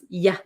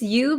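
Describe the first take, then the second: First: The vowel is reduced to a short 'uh' sound. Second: The vowel is a full, long 'oo' sound. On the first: "this you becomes ya" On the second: "this you becomes ya"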